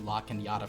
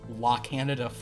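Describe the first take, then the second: First: The middle consonant is an ny sound. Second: The middle consonant is a plain n.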